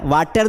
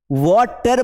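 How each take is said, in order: First: वाटर with a flat open "aa" vowel, like "vaa-ter"; wrong Hindi-style pronunciation. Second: वाटर with a rounded open "aw" vowel, like "waw-ter"; correct English pronunciation. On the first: Teacher showing students the wrong way, वाटर with a flat "aa". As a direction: say वाटर as "vaater", the common mistake. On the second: Teacher showing students the right way, वाटर with a rounded "aw". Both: Shown as a demonstration. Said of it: "हमारे pronunciation को हमें सही करना है".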